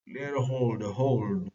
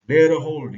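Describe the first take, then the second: First: Said in the usual way. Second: Commanding shout. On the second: Acted. He is commanding his men.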